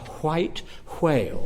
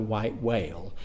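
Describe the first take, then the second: First: The words begin with a breathy hw sound. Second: The words begin with a plain w sound. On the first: The speaker calls it right. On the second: The speaker calls it wrong. "you were in danger of a beating if you said that Moby Dick was about a"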